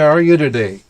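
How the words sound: The voice falls at the end like a statement. The speaker calls it right. "you make it a statement"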